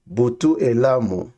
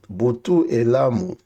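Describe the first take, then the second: No difference in how they are said.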